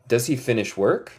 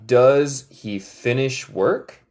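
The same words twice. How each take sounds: First: Said in the usual way. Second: "Does he finish work?" slow with a rise; slow model question. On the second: Shown as a demonstration. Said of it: "¿Él termina de trabajar?".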